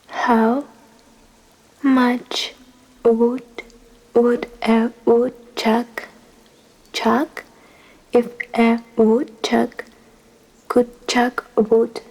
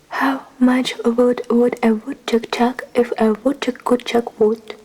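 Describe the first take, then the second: First: It is said at a slower, careful pace. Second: It is said at a quicker, normal pace.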